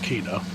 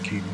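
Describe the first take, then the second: First: The name is said with two syllables, German style. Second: The name is said as one syllable, English style. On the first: "If it's pronounced a German way" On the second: "if it's English way"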